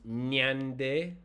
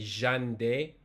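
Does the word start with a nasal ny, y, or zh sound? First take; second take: nasal ny; zh. First: It begins with a nasal ny sound. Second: It begins with a buzzing zh-like sound. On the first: "if it's nasalized, it become nyande" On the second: "Some people say ja... like how Argentinians pronounce"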